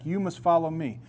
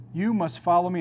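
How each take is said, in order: First: Said in the usual way. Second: "You must follow me" with each word pressed firmly; firm, insistent imperative; emphatic command. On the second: Retold or imitated. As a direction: lean on "You" and "follow" as an order. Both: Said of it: "It's emphatic".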